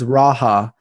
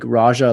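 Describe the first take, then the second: First: The middle consonant is an h sound. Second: The middle consonant is a j sound. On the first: The speaker calls it right. "it's Raha" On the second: The speaker calls it wrong. "not like Raja"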